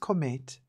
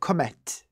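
First: The name is pronounced in a soft way. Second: The name is pronounced in a harsh way. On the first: This is a personal, non-French way of saying it. The speaker calls it wrong. "I'm going to pronounce it in the softer way" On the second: This is the proper French way of saying it. The speaker calls it right. "harsh and aggressive"

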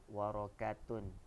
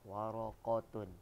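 First: The middle consonant is a plain front k. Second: The middle consonant is a deep back q. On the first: The speaker calls it wrong. "bukan waraqatun. Salah" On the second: The speaker calls it right. "Sama juga waraqatun, qaf"

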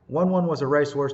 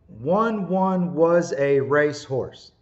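First: The words are said quickly and smoothly. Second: The words are said slowly and carefully. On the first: "A little bit faster" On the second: "let's practice that slowly until you get the pronunciation correct"

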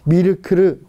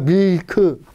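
First: Extra vowels are added after each consonant. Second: The word ends in a closed syllable without extra vowels. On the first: "얘네들은 미르크르 막 이러잖아요" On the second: "우리가 밀크 하는데"

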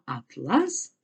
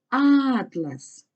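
First: The stress is on the second syllable. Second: The stress is on the first syllable. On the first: It means a kind of fabric. "а атлас це тканина" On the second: It means a book of maps. "атлас це книга"

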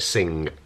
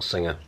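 First: The word is one syllable with no ending. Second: The word has an extra 'er' syllable. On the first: The speaker calls it right. "You say it sing" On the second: The speaker calls it wrong. "not singer"

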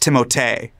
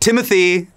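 First: The name ends with a 'tay' sound. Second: The name ends with a 'thee' sound. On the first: The name is said the way its owner intends. The speaker calls it right. "it's Timotei" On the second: The name is said the everyday anglicized way. The speaker calls it wrong. "they'll be like"

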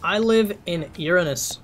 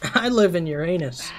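First: The last word sounds like the planet name. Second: The last word sounds like 'your anus'. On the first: The speaker lives on another planet. "Was I supposed to read that a different way?" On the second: The speaker lives inside someone's body. "Maybe I was supposed to read it that way"

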